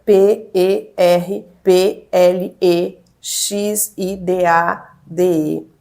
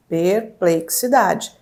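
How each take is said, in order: First: "P E R P L E X I D A D E" spelled slowly, letter by letter; sounding out words. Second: "perplexidade" split slowly into its syllables, per-ple-xi-da-de. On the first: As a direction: spell "P E R P L E X I D A D E" out one letter at a time. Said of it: "Letra por letra". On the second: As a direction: break "perplexidade" into separate syllables. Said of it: "Sílaba por sílaba". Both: Acted.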